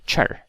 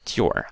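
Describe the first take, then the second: First: The syllable starts with a ch sound. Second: The syllable starts with a plain t sound. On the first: The speaker calls it right. "I say like chur" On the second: The speaker calls it wrong. "I don't say ture"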